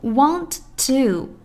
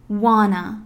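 First: Both words are said clearly and fully. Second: The words merge into one short word.

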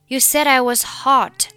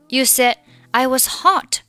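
First: The d of said links into I. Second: The final d of said is dropped. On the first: "里said 和I 可以连读成said I" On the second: "或者你可以选择said 末尾的不发音。"

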